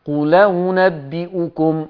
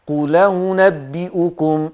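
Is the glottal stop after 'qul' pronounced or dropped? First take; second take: dropped; dropped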